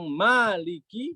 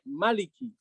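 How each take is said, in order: First: The first vowel is held long. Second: The first vowel is kept short. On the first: "bisa panjang" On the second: "bisa pendek"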